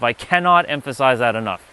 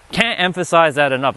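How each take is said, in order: First: Cannot spelled out in full and leaned on; stress on cannot. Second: Said in the usual way. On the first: Shown as a demonstration. Restating his point to viewers, weight on cannot. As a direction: lean into cannot, the rest falling away.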